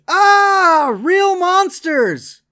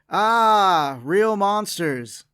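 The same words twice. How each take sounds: First: It is said excitedly, with emotion. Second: It is said flatly, without feeling.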